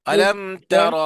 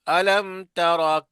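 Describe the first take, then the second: The two takes are said the same way.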